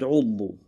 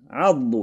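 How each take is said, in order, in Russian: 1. Слово начинается с гласной 'u'. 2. Слово начинается с гласной 'a'.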